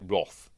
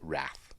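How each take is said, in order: First: It is said with a British English pronunciation. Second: It is said with an American English pronunciation. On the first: The speaker calls it right. "as in English we pronounce it Wrath" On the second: The speaker calls it wrong. "not Wrath"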